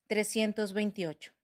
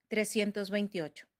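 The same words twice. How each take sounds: The two takes are said the same way.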